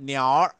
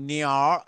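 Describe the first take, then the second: No difference in how they are said.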